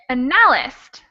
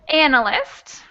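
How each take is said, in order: First: The stress is moved off the first syllable. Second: The stress is on the first syllable. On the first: The speaker calls it wrong. "if we change the stress, it would sound like analyst" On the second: The speaker calls it right. "where we have the first syllable stressed"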